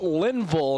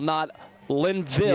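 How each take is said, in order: First: The first syllable has a short 'i' vowel. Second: The first syllable sounds like the word 'line'. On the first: The speaker calls it right. "It is Linville" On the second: The speaker calls it wrong. "not Linville. Or, Line, or Lineville"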